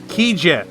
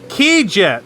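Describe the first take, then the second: The two takes are said the same way.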